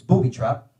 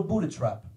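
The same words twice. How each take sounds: First: Said in the usual way. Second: Italian dad's slip, "booty trap"; mispronounced booby. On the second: Acted. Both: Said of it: "It's booby trap".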